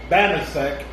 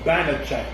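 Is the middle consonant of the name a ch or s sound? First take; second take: s; ch. First: The middle consonant is an s sound. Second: The middle consonant is a ch sound. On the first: The speaker calls it wrong. "It's not Banasek" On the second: The speaker calls it right. "it's Banachek"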